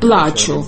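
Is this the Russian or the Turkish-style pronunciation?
Russian. It is said in the standard Russian way.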